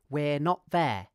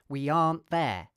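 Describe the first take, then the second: First: 'We are' is contracted into one syllable. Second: 'Are not' is contracted into one word. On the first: "I'll contract we are" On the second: "you could contract are not"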